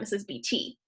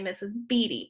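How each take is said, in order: First: Beatty is not stressed on its second-to-last syllable. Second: Beatty is stressed on its second-to-last syllable. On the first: The speaker calls it wrong. "It's not Missus B T" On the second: The speaker calls it right. "So it's that second to last syllable"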